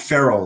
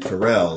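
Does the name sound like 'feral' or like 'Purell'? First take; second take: feral; Purell. First: The name sounds like the word feral. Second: The name rhymes with the word Purell. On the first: The speaker calls it right. "like a feral animal" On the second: The speaker calls it wrong. "like the stuff you clean your hands with, Purell"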